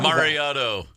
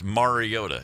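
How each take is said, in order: First: The name ends with a 'toe' sound. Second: The name ends with a 'tah' sound. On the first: The speaker calls it wrong. "mispronounces it" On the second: The speaker calls it right. "It's not that difficult"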